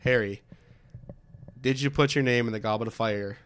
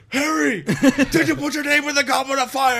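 First: It is said in a calm, quiet voice. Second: It is screamed in an angry, loud voice.

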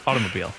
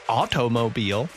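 First: It is said quickly. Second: It is said at normal speed.

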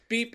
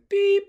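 First: The beep is short and clipped. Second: The beep is drawn out and long. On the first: It stands for a Morse code dot. "beep is one" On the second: It stands for a Morse code dash. "beep is the dash"

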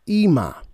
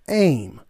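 First: The word is said as two syllables. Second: The word is said as one syllable. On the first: This is the modern pronunciation. "now in the modern Hebrew we pronounce it Ema" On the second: This is the ancient pronunciation. "back then it would be pronounced Aim"

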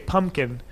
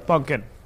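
First: The first syllable ends with an M sound. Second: The first syllable ends with an N sound. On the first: This is how it is said outside Trinidad. "we don't say pumpkin" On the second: This is how it is said in Trinidad. "We say pumpkin. ... with an N"

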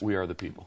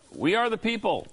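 First: It is said calmly and quietly. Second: It is said loudly and forcefully.

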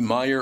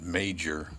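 First: The name is said like 'Meyer', without a J. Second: The name is said like 'Major', with a J. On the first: This is thought to be the original pronunciation. "I think it's Meyer originally" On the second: Some people pronounce it this way. "some of them pronounce it Major"

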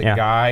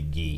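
First: The name is said like the word guy. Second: The name is said like the word gee. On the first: This is how it is said before learning better. The speaker calls it wrong. "Americans, pronounce it Guy until they reach a certain age" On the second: This is how it is meant to be said. The speaker calls it right. "they realize it should be"

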